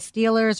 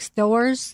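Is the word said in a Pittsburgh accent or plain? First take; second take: plain; Pittsburgh. First: The word is said with its L sounds. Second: The word is said without its L sounds.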